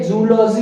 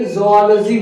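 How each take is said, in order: First: जूलॉजी as joo-LAW-zee; wrong pronunciation. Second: जूलॉजी as zoh-AH-luh-zee; correct pronunciation. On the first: Teacher contrasts the mistake for students, mispronounced. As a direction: start जूलॉजी with a 'joo' sound. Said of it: "जूलॉजी ना बोल के". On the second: Teacher corrects students' habit, carefully pronounced. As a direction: open जूलॉजी with 'zoh-ah'. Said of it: "जूलॉजी बोलेंगे". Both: Shown as a demonstration.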